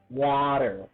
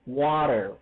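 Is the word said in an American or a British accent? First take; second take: American; American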